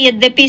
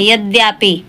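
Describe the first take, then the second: First: यद्यपि with a short अ after द, said carefully; correct form. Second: यद्यापि with a long आ after द, spoken casually; colloquial wrong form. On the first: Teacher gives students the correct यद्यपि carefully. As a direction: say the correct यद्यपि without lengthening. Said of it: "यद्यपि सही होता है". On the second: Teacher mimics how students mispronounce यद्यापि. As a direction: imitate the everyday slip यद्यापि. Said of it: "बोलचाल की भाषा में यद्यापि बोलते हैं". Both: Shown as a demonstration.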